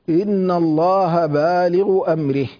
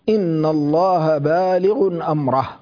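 First: Baligh runs straight into amrihi with no n sound. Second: Baligh ends with an n sound before amrahu. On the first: This is the reading of Hafs alone. "هذه قراءة حفص وحده" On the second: This is the reading of all the other reciters. "وقرأ الباقون كلهم بما فيهم شعبة"

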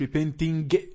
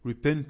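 First: The ending has an audible hard g. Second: The ending is nasal with no hard g. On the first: The speaker calls it wrong. "مش" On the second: The speaker calls it right. "الجي تحذف وننطق غنة"

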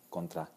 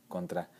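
Both takes have the same delivery.

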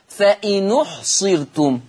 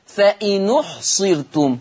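First: The glottal stop drops; the n takes its u-vowel. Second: The same.

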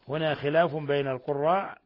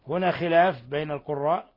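Both takes have the same delivery.

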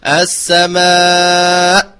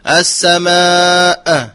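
First: The final glottal stop is clear with no echo. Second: The final glottal stop is released with an echo. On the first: The speaker calls it right. "فعليه أن يقول السماء" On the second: The speaker calls it wrong. "يقف يقول السماء خطأ، فهذه قلقلة"

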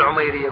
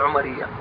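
First: The name is said with an 'ay' sound: Umairiya. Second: The name is said without the 'ay' sound: Umariya. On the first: The speaker calls it wrong. "لا تقول عميرية" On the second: The speaker calls it right. "قول عمرية"

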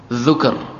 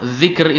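First: The vowel after the first consonant is u. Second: The vowel after the first consonant is i. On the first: The remembrance is in the heart. "Kalau pakai dhammah" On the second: The remembrance is spoken aloud. "Kalau pakai kasrah"

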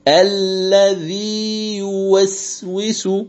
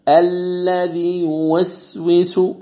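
First: The long vowel is held before a separate y. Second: The long vowel is dropped completely before y. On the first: The speaker calls it right. "أن تمكن المد دون إدغام" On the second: The speaker calls it wrong. "هذا خطأ، إسقاط كلي"

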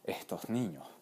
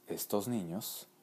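First: The s sounds are aspirated like an h. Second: The s sounds are pronounced as clear s.

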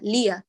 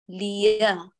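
First: The ya is merged into the kasra of lam. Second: The ya is clearly separated from the lam. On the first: The speaker calls it wrong. "فلا نقول ليا ليا، كأن الياء تكملة للام المكسورة فتدمجي بين الكسرة والياء" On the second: The speaker calls it right. "افصلي بينهما"

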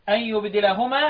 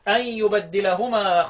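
First: The d sound in the verb is single. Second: The d sound in the verb is doubled.

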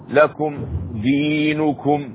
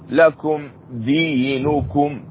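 No difference in how they are said.

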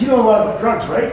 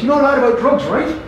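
First: It is said in the speaker's plain accent. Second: It is said in a Newfoundland accent.

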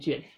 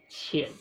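First: The word begins with an unaspirated j sound. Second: The word begins with an aspirated q sound. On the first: This is the common everyday pronunciation. The speaker calls it wrong. "大家都说哦" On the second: This is the standard pronunciation. The speaker calls it right. "但其实那个正确的发音是念券"

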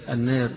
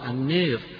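First: The long vowel leans slightly toward 'e'. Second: The long vowel is bent strongly toward 'e'. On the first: "بالتقليل فيها" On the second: "بالإمالة"

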